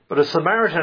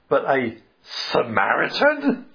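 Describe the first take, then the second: First: It sounds calm and matter-of-fact, like a statement. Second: It sounds shocked and disgusted, like a question. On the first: A Samaritan is simply introduced as the next character. "Jesus didn't say it that way" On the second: A Samaritan as the hero is shocking and distasteful. "the lawyer would have read it as"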